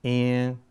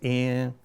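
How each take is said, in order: Both takes have the same delivery.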